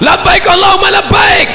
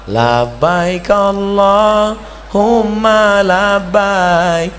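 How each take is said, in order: First: It is said loudly, like a Sumatran. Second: It is said softly, like a Javanese.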